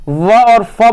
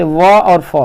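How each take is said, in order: First: "व और फ" sounded out slowly, each sound drawn out; slow articulated demo. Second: Said in the usual way. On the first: Shown as a demonstration. Teacher repeating व and फ for students, slow careful demo. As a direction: say "व और फ" slowly, showing lip on teeth. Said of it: "व और फ बोलते हैं". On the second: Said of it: "निचले होठ और ऊपर के दांतों से".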